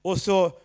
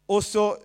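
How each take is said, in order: Both takes have the same delivery.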